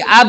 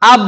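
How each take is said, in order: First: "ab" with the final b let go into a small vowel; released AB, wrongly. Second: "Ab" with lips shut on the final b; correct held AB. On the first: Teacher showing what not to do, released "ab". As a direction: release the b at the end of "ab". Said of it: "Bukan di ab, enggak". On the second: Teacher modelling the letter for students, held "Ab". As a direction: close "Ab" on a voiced b, no release. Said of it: "Tapi gini, seperti ini". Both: Shown as a demonstration.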